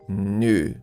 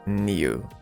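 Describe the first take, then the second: First: New is said in the common American way. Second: New is said in another regional way. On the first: "In American English, is more common new" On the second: "depending on the area where you go, you can listen new"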